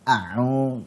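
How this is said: The throat sound is pressed hard. The speaker calls it wrong. "jangan a'u, jangan ditekan"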